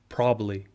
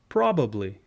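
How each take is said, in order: First: A syllable is dropped, making it shorter. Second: Every syllable is said in full.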